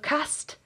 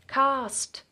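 First: The vowel sounds northern English. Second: The vowel sounds southern English. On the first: "if we sounded like the most northern English choir ever because of cast" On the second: "How else would you say it?"

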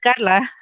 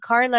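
First: The name has a Spanish pronunciation. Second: The name has an American pronunciation. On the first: The speaker calls it right. "wait, no, it's Carla" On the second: The speaker calls it wrong. "Even in Spanish I was saying Carla"

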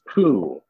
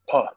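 First: The name ends in an oo vowel. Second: The name ends in a breathy oh vowel. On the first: The speaker calls it wrong. "If we say it like they're saying it in the Japanese, it's poo" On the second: The speaker calls it right. "So there was a lot of breath on the end"

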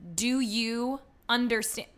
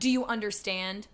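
First: It is said more slowly. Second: It is said at normal speed.

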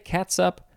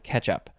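First: It sounds like the two words cats up. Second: It sounds like the single word ketchup. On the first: "Do people say cats up" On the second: "or do they still pronounce that one ketchup?"

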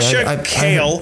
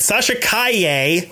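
First: The surname ends with an L sound. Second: The surname ends with an 'ay' sound. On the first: The speaker calls it wrong. "I don't think that's how you say it" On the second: The speaker calls it right. "I'll say it like that"

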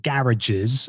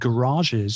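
First: The word is said in a slangy way. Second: The word is said in a standard way.

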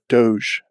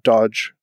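First: The word ends with a soft 'zh' sound. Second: The word ends with a hard 'j' sound. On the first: The speaker calls it right. "but Doge, as in like Taj Mahal" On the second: The speaker calls it wrong. "not Dodge"

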